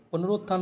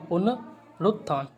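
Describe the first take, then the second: First: "पुनरुत्थान" squeezed to पुनरोत्थान; wrong form. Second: "पुनरुत्थान" slow, split पुन-रुत्थान; correct form. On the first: Teacher quoting the mistake, run-together middle. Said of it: "पुनरुत्थान नहीं होगा". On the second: Teacher correcting students, slow split pronunciation. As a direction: slowly sound रु in "पुनरुत्थान". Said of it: "ये होगा". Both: Shown as a demonstration.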